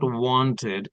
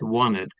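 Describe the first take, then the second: First: The T after the N is clearly pronounced. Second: The T after the N is dropped. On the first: The speaker calls it wrong. "not wanted" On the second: The speaker calls it right. "it's wanted ... when you silent T, then it becomes wanted because there is no T"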